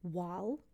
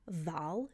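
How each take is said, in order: First: The word begins with a w sound. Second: The word begins with a v sound.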